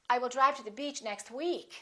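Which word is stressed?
week. The stress falls on the word week. The time is a week, not some other period. "you can put a little more extra stress on the word week"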